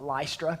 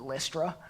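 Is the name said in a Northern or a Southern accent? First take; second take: Northern; Southern. First: The name is said in a Northern accent. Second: The name is said in a Southern accent. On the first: "depending if you're from the north, you pronounce that Lystra" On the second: "I'm a redneck, so I'll pronounce it Lystra"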